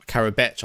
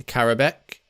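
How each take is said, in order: First: Karabech, last sound ch instead of k; ending in a ch sound. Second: Karabek, closed on a plain k; ending in a k sound. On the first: Commentator correcting the player's name, ending in a ch sound. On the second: Commentator naming the player on the ball, ending in a k sound. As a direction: say Karabek with a hard k at the end. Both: Real, not acted. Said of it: "I think it might be".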